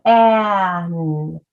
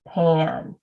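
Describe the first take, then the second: First: PAN split into P, long A, N; sounds stretched apart. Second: Said in the usual way. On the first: Shown as a demonstration. Teacher arm-tapping PAN with viewers, sounds stretched apart. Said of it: "arm tap it together". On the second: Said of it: "And then we blend it".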